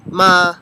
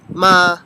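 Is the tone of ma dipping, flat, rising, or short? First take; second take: flat; flat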